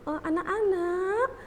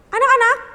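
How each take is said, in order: First: It is said very softly. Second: It is shouted loudly.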